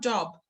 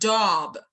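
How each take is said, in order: First: The vowel is said at normal length and strength. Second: The vowel is drawn out and said strongly. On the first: "الطبيعي إن أنا بقول job" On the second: "لو أنا هstress بقى هقول job. ها exaggerate في ال في ال في الفاول"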